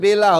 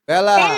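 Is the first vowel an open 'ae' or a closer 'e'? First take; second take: closer e; open ae. First: The first vowel is a closer 'e' sound. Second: The first vowel is an open 'ae' sound. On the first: "আর যদি এই এখানে যদি এ না থাকতো, মাত্রা না থাকতো, তাহলে বেলা হতো।" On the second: "একারের মাত্রা থাকবে তখন উচ্চারণ হবে অ্যা।"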